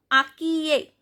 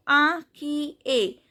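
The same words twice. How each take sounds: First: Said in the usual way. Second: Inquiet slowly split as "a... kee... ay"; sounded out by syllable. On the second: Shown as a demonstration. Teacher breaks down the nasal IN for learners, slow syllable-by-syllable demo. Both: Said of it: "I N sound is a".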